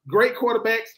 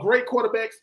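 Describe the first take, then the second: First: It is said with excited, exclaiming emphasis. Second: It is said as a flat, calm statement. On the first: It is an enthusiastic declaration. "Exclamation point" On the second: It is a plain fact.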